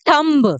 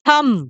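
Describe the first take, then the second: First: A b sound is heard at the end. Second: No b sound is heard at the end. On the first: The speaker calls it wrong. "आप गलती कर रहे हो दोस्तों" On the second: The speaker calls it right. "इसमें बी silent है"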